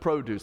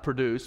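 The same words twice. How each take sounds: First: The stress is on the first syllable. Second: The stress is on the second syllable. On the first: It means fruit and vegetables. The speaker calls it right. "but produce, like what you get at the supermarket" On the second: It means to make or bring about. The speaker calls it wrong. "Not produce"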